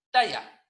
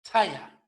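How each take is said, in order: First: Said in the usual way. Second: "talla" with a strong puff after the T; breathy t-h starting "talla"; aspirated T. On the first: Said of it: "La palabra no es". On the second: Shown as a demonstration. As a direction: release the T of "talla" with audible breath. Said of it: "no es simple".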